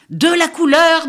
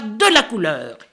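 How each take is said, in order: First: Gleeful chant. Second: Said in the usual way. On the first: A narrator's reading. Crow paints himself, chanting.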